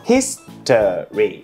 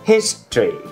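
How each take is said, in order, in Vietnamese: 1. Từ history được nói thành ba âm tiết. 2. Từ history được nói thành hai âm tiết. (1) "Thành 3 âm tiết đúng không?" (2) "Chỉ có 2 thôi"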